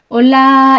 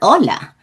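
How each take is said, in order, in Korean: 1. 평평하게 말하고 강세가 있는 음절은 없어요. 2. 음을 높이고 강세를 분명하게 줘서 말해요. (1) "올라 이렇게 하면 한국어예요. 그럼 강세도 없어요" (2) "얘는 무조건 올라. ... 음성을 살짝 높이시는 거예요"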